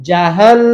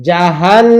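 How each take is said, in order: The two takes are said the same way.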